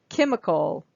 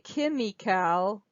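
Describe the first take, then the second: First: The first syllable is clearly stressed. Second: The first syllable is not clearly stressed. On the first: The speaker calls it right. "So here the first the first vowel is stressed" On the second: The speaker calls it wrong. "it's not allowing that first syllable that first syllable to really pop"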